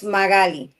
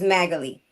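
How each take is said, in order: First: The name is said with Spanish pronunciation. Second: The name is said with English pronunciation. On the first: "If you speak Spanish, it's Magali" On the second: "If you don't speak Spanish, the easiest way is Magali. Like Natalie"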